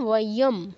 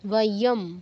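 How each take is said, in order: No difference in how they are said.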